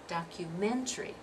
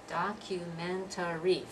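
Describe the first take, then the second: First: The fourth syllable is dropped, giving four. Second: It is said with all five syllables. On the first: The speaker calls it right. "We're dropping that syllable there at the end, that fourth syllable" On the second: The speaker calls it wrong. "Five syllables, we don't pronounce it that way"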